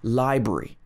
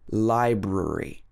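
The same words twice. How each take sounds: First: The word is said with two syllables. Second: The word is said with three syllables. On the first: The speaker calls it wrong. "A lot of people will miss out the second syllable. They'll say library" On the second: The speaker calls it right. "But strictly speaking, library"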